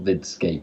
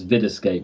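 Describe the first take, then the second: First: The name is said as Vidscape. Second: The name is said as Videscape. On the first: The speaker calls it wrong. "not Vidscape" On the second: The speaker calls it right. "It's Videscape"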